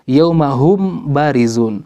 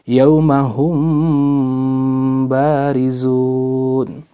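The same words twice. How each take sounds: First: The m is pronounced fully and separately. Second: The m is softened, halfway between clear and merged. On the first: The speaker calls it wrong. "Bagaimana kalau kita membaca izhar?" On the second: The speaker calls it right. "tapi dibaca ikhfa antara keduanya"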